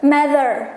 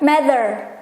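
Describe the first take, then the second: Both takes have the same delivery.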